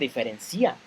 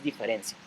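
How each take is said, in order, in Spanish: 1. El acento recae en la sílaba ci. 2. El acento recae en la sílaba ren. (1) "No se dice diferencia" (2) "Entonces es diferencia"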